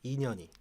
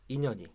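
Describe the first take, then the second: First: The vowel is drawn out long. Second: All syllables are given equal, short length. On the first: "길게 할 때는" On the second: "같게 딴딴딴"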